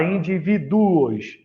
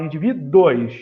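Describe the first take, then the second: First: "indivíduos" with the ending pulled apart into du-os; over-separate the last vowels of "indivíduos" as a hiatus; wrong syllable split. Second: "indivíduos" with the last vowels glided together as dwos; rising diphthong ending. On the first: Teacher showing students how not to say it, "indivíduos" split as du-os. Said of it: "Você não fala indivíduos". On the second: Teacher showing students the usual form, "indivíduos" ending in one syllable. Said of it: "você fala indivíduos". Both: Shown as a demonstration.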